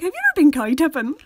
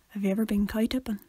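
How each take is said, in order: First: The question is said at a normal pitch and volume. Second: The question is said lower and more quietly. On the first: "you could be like" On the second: "if you just go lower"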